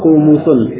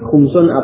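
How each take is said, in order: First: The middle consonant is followed by a u vowel. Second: The middle consonant has no vowel after it.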